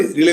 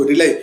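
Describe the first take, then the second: First: "रिले" rhyming with "delay"; mispronounced RELY. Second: "रिलाई" rhyming with "lie"; corrected RELY pronunciation. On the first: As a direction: say "रिले" ending in an "ay" sound. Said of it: "sorry रिले नहीं बोलेंगे इसको". ("रिले", अंत में "ए" की ध्वनि के साथ) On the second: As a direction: say "रिलाई" ending in an "eye" sound. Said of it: "रिले नहीं बोलेंगे इसको". ("रिलाई", अंत में "आई" की ध्वनि के साथ) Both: Shown as a demonstration.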